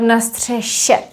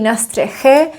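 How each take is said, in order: First: The last consonant is a soft 'sh' sound. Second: The last consonant is a rough 'ch' sound. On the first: The speaker calls it right. "but na střeše. There is this softening" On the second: The speaker calls it wrong. "it would not be na střeche"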